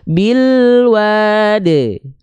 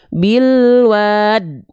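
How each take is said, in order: First: The final d ends with a slight vowel echo. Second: The final d stops abruptly as a bare consonant. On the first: The speaker calls it right. "bunyi ada bunyi sedikit vokalnya" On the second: The speaker calls it wrong. "Jadi bukan bilwad. Nah, nggak berhenti begitu"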